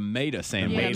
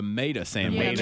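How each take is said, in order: First: Tomato is clipped, sounding like mayda. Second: The same.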